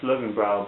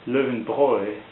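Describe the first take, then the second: First: It is said with an English-style pronunciation. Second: It is said with a German pronunciation. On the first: The speaker calls it wrong. "I thought it's pronounced" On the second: The speaker calls it right. "The German folks, they pronounce it"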